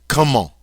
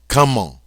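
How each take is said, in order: The two takes are said the same way.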